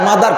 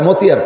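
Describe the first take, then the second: First: It is said as 'mother', with a th sound. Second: It is read letter by letter as 'motiyar'. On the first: "কে মাদার কব" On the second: "কে মতিয়ার কব"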